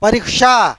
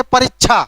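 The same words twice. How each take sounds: First: परीक्षा with a clear k plus sh, "pariksha"; correct pronunciation. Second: परीक्षा said with a chh sound, "parichchha"; colloquial pronunciation. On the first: Teacher demonstrating the proper sound to students, careful k-sh in परीक्षा. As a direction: join k and sh crisply in परीक्षा. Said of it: "उसका सही उच्चारण है क और श का मेल". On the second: Teacher showing students today's habit, colloquial chh in परीक्षा. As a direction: say परीक्षा the everyday way, क्ष turned to छ. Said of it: "कोई परीक्षा तो नहीं बोलते हैं". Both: Shown as a demonstration.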